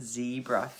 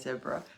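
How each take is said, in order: First: The word is said in a non-Australian way. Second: The word is said in an Australian way. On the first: "Is it zebra for you guys?" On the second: "do you love how I say zebra? ... Very Aussie I am"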